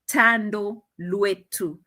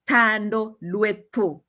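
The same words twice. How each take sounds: First: The name is pronounced the Zulu way. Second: The name is pronounced the speaker's own way. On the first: "I've known how to pronounce" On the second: "We pronounce it like"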